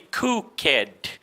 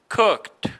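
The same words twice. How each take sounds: First: The -ed ending is said as an extra syllable. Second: The -ed ending adds no extra syllable. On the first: The speaker calls it wrong. "You never say cooked" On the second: The speaker calls it right. "You just don't pronounce the E"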